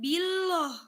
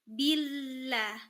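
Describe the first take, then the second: First: The L sound is heavy and thick. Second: The L sound is light and thin. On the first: The speaker calls it wrong. "bukan billoh" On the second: The speaker calls it right. "tipis, tarkik"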